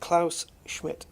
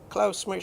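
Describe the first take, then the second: First: The name is said slowly and carefully. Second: The name is said quickly and slurred. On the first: The speaker calls it right. "There you go" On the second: The speaker calls it wrong. "I think I just butchered the name there. I said it too fast"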